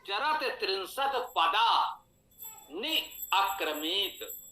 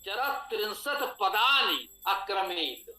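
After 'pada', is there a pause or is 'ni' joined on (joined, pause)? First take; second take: pause; joined. First: There is a pause between pada and ni. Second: Pada and ni run together without a pause. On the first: Ni is a separate word from pada. The speaker calls it right. "पदा पर आपको विराम देना है ना। तो कैसे पढ़ेंगे?" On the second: It becomes padani, a plural form of pada. The speaker calls it wrong. "पदा के साथ नी को जोड़ लेंगे"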